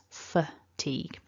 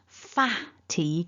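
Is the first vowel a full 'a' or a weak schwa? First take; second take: schwa; full a. First: The first vowel is a weak schwa sound. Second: The first vowel is a full 'a' sound. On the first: The speaker calls it right. "a weak schwa uh" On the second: The speaker calls it wrong. "you might be tempted to say an a instead of a weak schwa"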